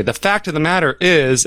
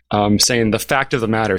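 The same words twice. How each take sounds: First: Lightly mimicking a pundit's stock phrase; pompous verbal tic. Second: Said in the usual way. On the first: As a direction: rattle off the pet phrase. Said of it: "verbal tick". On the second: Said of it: "one person's verbal tick".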